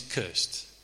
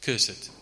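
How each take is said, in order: First: "cursed" in one syllable, rhyming with first. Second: "Cursed" in two syllables, curse-ed. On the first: Preacher asks what the word means, "cursed" said as curst. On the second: Preacher echoes the psalm's phrasing, "Cursed" said as curs-ed. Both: Real, not acted. Same word said in two forms.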